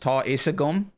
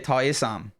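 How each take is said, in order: First: The last word is said fully as two syllables. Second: The last word is shortened to one syllable. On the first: This is the pronunciation used outside the West. "if you were to say I know, it's ta isagum" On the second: This is the pronunciation used in the West. "I would say ta isam. So A G A M is pronounced am over in the West"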